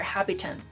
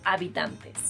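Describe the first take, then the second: First: It sounds like the English word inhabitants. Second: It is said with plain Spanish sounds throughout. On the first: The speaker calls it wrong. "English speakers learning Spanish usually say ... because it's very similar to inhabitants" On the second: The speaker calls it right. "the correct pronunciation is habitantes"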